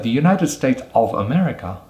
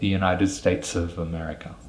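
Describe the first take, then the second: First: Each word is said fully, without weak forms. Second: Words run together, with 'of' reduced to 'uh'. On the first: The speaker calls it wrong. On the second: The speaker calls it right.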